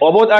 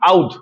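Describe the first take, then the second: First: The name is said with a 'b' sound. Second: The name is said with an 'au' glide, no 'b'. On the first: This is how it usually comes out in speech. "উচ্চারণে অবধ আসে" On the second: This is the actual name. "Actually নাম হলো আউধ"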